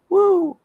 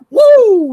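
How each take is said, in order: First: The woo is weak and low in energy. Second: The woo is loud and full of energy. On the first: The speaker calls it wrong. "you do like a half-hearted woo" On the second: The speaker calls it right. "no, I want to woo"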